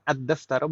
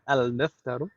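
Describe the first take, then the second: First: The L merges into a doubled D sound. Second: The L is clearly pronounced before the D. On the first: The speaker calls it right. "harus seperti itu" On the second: The speaker calls it wrong. "bukan al-daftaru"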